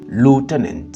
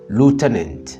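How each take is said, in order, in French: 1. Il est prononcé avec un accent américain. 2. Il est prononcé avec un accent américain.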